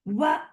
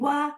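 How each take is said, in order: First: The vowel is cut off with an abrupt jerk. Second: The vowel is held evenly for one short beat. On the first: The speaker calls it wrong. "और झटका भी नहीं देना है। ... ये नहीं सही है।" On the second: The speaker calls it right. "ना ही झटका देना है, ना ही लंबा करना है।"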